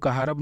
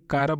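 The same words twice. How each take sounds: First: कहारब with an extra 'ha' syllable; कहारब in three syllables, h sounded; wrong word demo. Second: कारब with no h in it; कारब in two syllables, long first aa; correct word demo. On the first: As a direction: say कहारब as 'ka-HAA-rab'. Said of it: "कहारब नहीं बोलेंगे". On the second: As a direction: say कारब as 'KAA-rab'. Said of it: "कारब बोलेंगे". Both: Shown as a demonstration.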